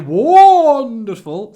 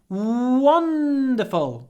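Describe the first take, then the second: First: The w and n sounds are short and plain. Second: The w and n sounds are long and drawn out. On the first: It is only ordinarily nice. The speaker calls it wrong. "don't say wonderful" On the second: It is really wonderful. The speaker calls it right. "Lots of w and lots of n"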